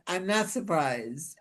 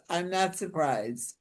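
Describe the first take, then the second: No difference in how they are said.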